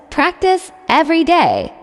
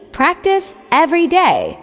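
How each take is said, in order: Both takes have the same delivery.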